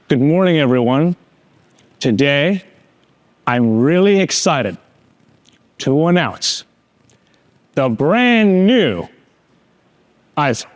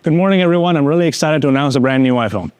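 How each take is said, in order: First: It is said lively, with strong emphasis. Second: It is said flatly, with little emphasis. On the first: The announcement sounds inspiring. The speaker calls it right. "the pacing changed, and the emphasis changed" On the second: The announcement sounds uninspiring. The speaker calls it wrong. "Would anyone be inspired by that?"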